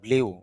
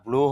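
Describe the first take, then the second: First: The vowel has a y-glide, like 'yoo'. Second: The vowel is a long plain 'oo'. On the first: The speaker calls it wrong. "অনেকে এটাকে ব্লিউ উচ্চারণ করে" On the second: The speaker calls it right. "ব্লু হবে, তবে একটু দীর্ঘ হবে"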